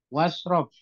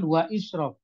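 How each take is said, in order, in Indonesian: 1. Vokal 'i' tidak dibaca, langsung menyambung. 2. Vokal 'i' dibaca sebagai bunyi tersendiri. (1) "alifnya tidak usah dibaca, langsung masuk ke shinnya"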